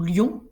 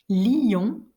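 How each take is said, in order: First: The word is said as one syllable. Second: The word is split into two syllables. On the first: "ou en une seule syllabe" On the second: "deux voyelles successives peuvent être prononcées en deux syllabes"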